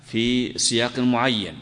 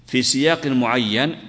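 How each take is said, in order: Both takes have the same delivery.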